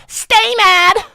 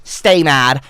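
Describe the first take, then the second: First: A mocking high-pitched yell; taunting squeal at the chat; high shouted taunt. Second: Said in the usual way. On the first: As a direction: shriek it high and loud.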